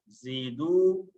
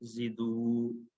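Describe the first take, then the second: First: ज़ीदू with the long ई of the या kept; correct form. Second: जिदू said very slowly with a short जि and the या dropped; wrong reading. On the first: Teacher drilling students on the right form ज़ीदू, the ई held long. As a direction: say ज़ीदू with a clear long ज़ी. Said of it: "यहाँ पर या आएगा". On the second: Teacher showing students the reading to avoid, a slow stretched जिदू. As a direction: drag out जिदू, the mistake students make, short जि. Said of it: "ऐसे नहीं पढ़ना". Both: Shown as a demonstration.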